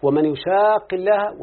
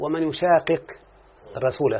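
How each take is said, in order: First: يشاق with merged doubled qaf, recited slowly and higher; Quranic recitation. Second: يشاقق with both qafs split apart; Quranic recitation. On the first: Teacher reciting the verse again to illustrate merging. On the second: Teacher reciting the verse's unmerged form. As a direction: recite يشاقق with the double qaf separated. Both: Shown as a demonstration. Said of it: "مثلت بالآية القرآنية".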